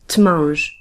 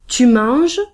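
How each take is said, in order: First: The u is dropped, giving t'manges. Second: The pronoun is said in full as tu. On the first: The speaker calls it wrong. "it is too difficult to pronounce" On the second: The speaker calls it right. "we keep the U"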